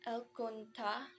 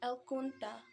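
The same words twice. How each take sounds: First: "el cunta" stressed cun-TA; el cun-TA, ending lifted; stress on final syllable. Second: "el cunta" stressed CUN-ta; el CUN-ta, falling at the end; stress on first syllable. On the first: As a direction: lean on the last syllable of "cunta", pitch rising. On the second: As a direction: lean on the CUN of "cunta", then let it fall. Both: Shown as a demonstration. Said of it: "stress might be the only difference".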